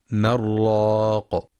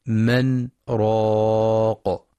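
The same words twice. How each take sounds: First: من راق run together as marraq with no pause; wrongly merged. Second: من held, a brief stop without breath, then راق; light pause. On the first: Teacher showing the wrong merged reading, slow. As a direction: merge the nun into the ra, the error. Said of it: "فلا يقرأ بالإدغام". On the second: Teacher demonstrating the sakta, very slow. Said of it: "بسكتة لطيفة بدون تنفس". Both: Shown as a demonstration.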